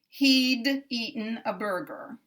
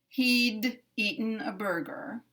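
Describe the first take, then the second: First: The D is released separately before the next word. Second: The D is released separately before the next word.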